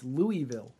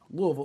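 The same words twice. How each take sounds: First: Every syllable and vowel is said clearly. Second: The vowels are dropped and the consonants rushed together. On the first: The speaker calls it wrong. "I know that's not the right way" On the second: The speaker calls it right. "Like there's no vowels in it. And you're just kind of brushing through all the consonants as quickly as possible"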